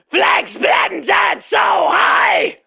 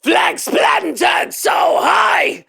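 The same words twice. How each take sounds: First: The scream sounds meaner, with facial tension. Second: The scream sounds plain, without extra facial tension. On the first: "And now with face, It sounds more mean"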